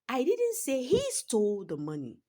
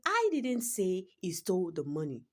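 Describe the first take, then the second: First: The stress is on the word he. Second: The stress is on the word I.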